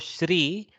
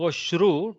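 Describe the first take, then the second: First: The sound after 'sh' is an i vowel. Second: The sound after 'sh' is an u vowel. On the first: This is how speakers in the north say it. "don't go Shri. Shri is kind of the northern accent" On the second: This is how speakers in the south say it. "don't go Shru ... Shru is the southern accent"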